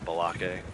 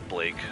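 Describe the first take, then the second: First: An extra vowel splits the name into two syllables. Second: The name is one syllable with no extra vowel. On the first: The speaker calls it wrong. "he calls him Balake" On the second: The speaker calls it right. "it's Blake"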